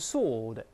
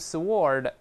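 First: No w sound is pronounced after the s. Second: A w sound is pronounced after the s. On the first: The speaker calls it right. "注意W is silent" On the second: The speaker calls it wrong. "不要读sword"

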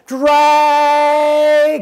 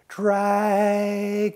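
First: The word is said as loudly as possible. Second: The word is said very softly.

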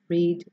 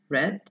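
First: The vowel sounds like the one in 'reed'. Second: The vowel sounds like the one in 'red'. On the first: It is the base form of the verb. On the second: It is the past participle form of the verb.

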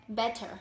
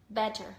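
The two takes are said the same way.

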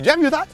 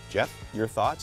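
First: It is said in a light, jokey comedian manner. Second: It is said in a firm, authoritative manner. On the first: The speaker mimics how the other host would say it. The speaker calls it wrong. "You couldn't do that. You'd say" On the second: The speaker shows his own way of saying it. The speaker calls it right. "And that's authoritative"

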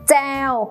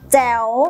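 First: The syllable has a level mid tone. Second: The syllable has a rising tone. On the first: "มีพื้นเสียงเป็นเสียงสามัญ" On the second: "มีรูปวรรณยุกต์จัตวามีเสียงวรรณยุกต์จัตวา"

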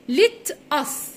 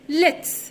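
First: It is said as two separate words. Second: It is said as one contracted word. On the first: "ليت اس هي اختصارها ليتس" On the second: "اختصارها ليتس"

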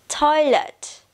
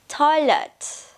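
The two takes are said the same way.

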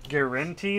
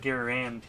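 First: The middle syllable sounds like 'en'. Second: The middle syllable sounds like 'an'. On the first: "Is it EN or AN?" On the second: "I think it's AN"

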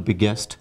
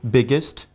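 First: The ending has a full 'e' vowel, 'est'. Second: The ending has a reduced 'i' vowel, 'ist'. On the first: The speaker calls it wrong. "people often pronounce the superlative form with ST as est" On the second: The speaker calls it right. "EST should be pronounced as ist"

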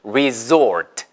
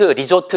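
First: It is said with an English pronunciation. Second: It is said with a Korean-style pronunciation. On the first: The speaker calls it right. "resort가 맞아요" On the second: The speaker calls it wrong. "근데 리조트라고 발음하지 마시고"

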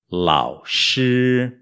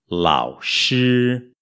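The two takes are said the same way.

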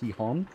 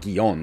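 First: The first consonant is a throaty Spanish h sound. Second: The first consonant is an English-style soft g. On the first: The speaker calls it right. "It's Gijón" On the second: The speaker calls it wrong. "I've been saying Gijón incorrectly. It's not Guion, as I've been saying"

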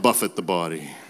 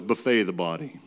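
First: Buffet is said BUFF-it, like striking. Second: Buffet is said boo-FAY, like the meal. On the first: Striking and disciplining the body. The speaker calls it right. "not buffet the body" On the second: Feeding the body with a spread of food. The speaker calls it wrong. "I thought it was buffet the body"

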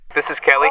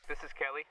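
First: It is said loudly, yelling. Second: It is said in a quieter voice.

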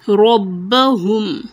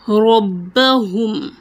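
Both takes have the same delivery.

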